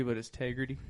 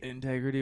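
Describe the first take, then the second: First: Tegrity, dropping the In of Integrity; Tegrity without in-. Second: Said in the usual way. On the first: Shown as a demonstration. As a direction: say Tegrity, starting straight on T. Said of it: "it's supposed to be, integrity".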